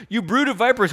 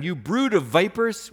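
First: Loud and high, hurling the insult; preached rebuke. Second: Said in the usual way. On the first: Acted. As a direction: thunder it like a prophet. John's rebuke, shouted out.

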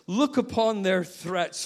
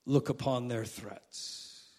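First: "Look" stressed, higher and pleading; urgent cry for God to notice; emphatic plea. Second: "look upon their threats" low, soft and slow; a hushed, slow prayer line; quiet slow prayer. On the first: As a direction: press hard on "Look". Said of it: "That's that word". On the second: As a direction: murmur "look" as a quiet plea. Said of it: "I'm fascinated by that word, look". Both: Shown as a demonstration.

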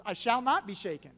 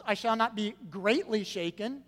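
First: Loud, with "not" punched and the end falling; emphatic "not", no hedging; firm progression. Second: Loud reading with "greatly" picked out; "greatly" stressed, ending left rising. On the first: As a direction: hit "not" hard and close it firmly. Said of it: "Notice again a progression". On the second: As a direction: lean on "greatly", lifting it as the key word. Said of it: "having the adverb there". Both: Shown as a demonstration.

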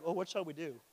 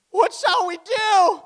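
First: Said in the usual way. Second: High, loud, drawn-out wail; hammed-up alarmed shout; exclaimed outcry. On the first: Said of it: "if you just read it like". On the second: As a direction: cry it out with a big exclamation mark. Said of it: "Exclamation mark".

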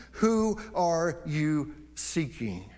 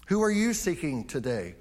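First: Drawn out, very slow, weighty; very slow searching question; slow emphatic question. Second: Said in the usual way. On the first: Shown as a demonstration. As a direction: let each word land slowly. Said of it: "preacher repeats question for emphasis". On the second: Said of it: "plain repeat to congregation".

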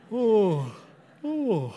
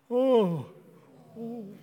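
First: A real yawn escaping mid-sentence. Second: Big put-on yawn on request; fake yawn. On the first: Real, not acted. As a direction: yawn for real, then excuse yourself. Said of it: "Excuse me". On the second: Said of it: "Let's all rip a fake yawn".

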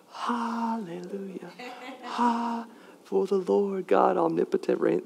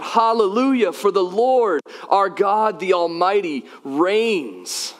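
First: Hushed, slow whispered lyrics; very soft, drawn-out mock choir whisper. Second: High, ringing proclamation of praise; crying out. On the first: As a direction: whisper the praise feebly, as a joke. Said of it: "all they did was whisper the lyrics". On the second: Acted. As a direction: cry it out, holding nothing back. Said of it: "They're crying out".

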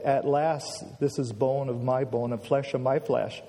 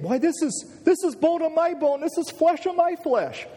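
First: Flat, matter-of-fact Bible reading; unmoved, level read-through; deadpan. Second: Very high, elated exclamation; acted-out thrill, pitched way up; beside himself with excitement. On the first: Shown as a demonstration. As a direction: read it without any excitement. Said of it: "We read it kind of deadpan". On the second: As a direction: burst out in amazed joy. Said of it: "he was just excited and almost beside himself, saying".

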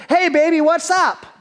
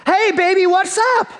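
First: Put-on high, loud, jaunty hey baby; cocky greeting. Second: Put-on even higher, loud hey baby, pressing harder; pushier greeting. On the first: Briar Rabbit sweet-talking the tar baby, high jaunty call. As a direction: strut up and call out to the doll. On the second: Briar Rabbit trying the tar baby again, higher insistent call.

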